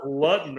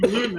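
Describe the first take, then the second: First: "Luton" said as LUT-n; short first vowel in "Luton"; alternative pronunciation. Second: Said in the usual way. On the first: Shown as a demonstration. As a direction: say "Luton" to rhyme with button. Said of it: "all of a sudden it's pronounced Luton". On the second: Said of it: "they're saying Luton".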